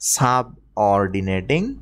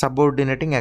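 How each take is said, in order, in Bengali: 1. শব্দাংশগুলোর মাঝে ছোট ফাঁক থাকে। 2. শব্দাংশগুলো ফাঁক ছাড়াই একসাথে থাকে। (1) "আমি একটু বোঝার সুবিধার্থে" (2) "একসাথেও করতে পারেন"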